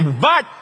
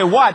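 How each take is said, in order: First: The word begins with a V sound. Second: The word begins with a W sound. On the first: "You just say V" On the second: "You don't pronounce W"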